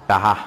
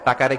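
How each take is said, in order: First: The middle consonant is an h sound. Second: The middle consonant is a k sound.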